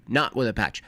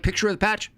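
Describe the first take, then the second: First: Said in the usual way. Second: "picture with a patch" said higher and faster; higher, brighter take. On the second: Shown as a demonstration. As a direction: lift the pitch up on "picture with a patch". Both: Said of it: "picture with a patch, not with a patch".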